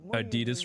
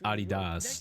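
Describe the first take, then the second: First: It uses the common American pronunciation. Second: It uses the original non-American pronunciation. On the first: The speaker calls it wrong. "a lot of people do pronounce Adidas wrong" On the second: The speaker calls it right. "it's actually pronounced Adidas"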